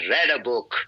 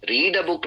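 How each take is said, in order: First: The vowel in read is short, like red. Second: The vowel in read is long, like reed. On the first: The action happened in the past. The speaker calls it right. "यहां पर इसको हम रीड नहीं बल्कि रेड pronounce करेंगे" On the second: The verb is in its base, present form. The speaker calls it wrong. "रीड a book नहीं"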